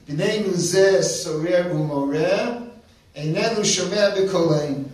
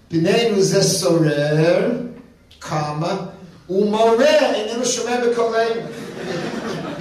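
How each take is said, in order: First: It runs on without a pause after sorer. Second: It breaks with a pause after sorer.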